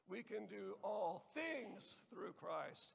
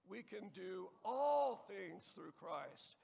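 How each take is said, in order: First: The word "things" is stressed. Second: The word "all" is stressed. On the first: "and so on" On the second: "and so on"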